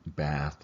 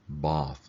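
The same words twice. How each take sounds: First: It is said in an American accent. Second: It is said in a British accent. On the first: "as we Americans call it" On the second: "as the Brits like to call it"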